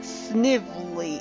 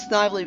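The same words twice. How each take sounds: First: The name is said with a sniffly-sounding vowel. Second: The name is said with a harsher, more sinister vowel. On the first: This is the official pronunciation. The speaker calls it wrong. "actually pronounced Snively ... It sounds like he has a cold" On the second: This is the pronunciation the speaker grew up with. The speaker calls it right. "keep calling him Snively ... it sounds more evil"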